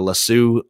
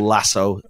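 First: The word has a non-American pronunciation. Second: The word has an American pronunciation.

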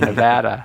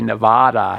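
First: Nevada is said the West Coast way. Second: Nevada is said the East Coast way. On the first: "instead of Nevada" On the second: "people from the East Coast who say Nevada"

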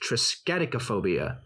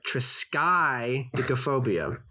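First: The second syllable sounds like 'skeddy'. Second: The second syllable sounds like 'sky'. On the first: The speaker calls it wrong. "another staff member that believes it is pronounced" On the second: The speaker calls it right. "I'm emphasizing that"

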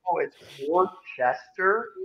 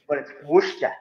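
First: Worcester is said the general American outsider way. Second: Worcester is said with the local Massachusetts accent.

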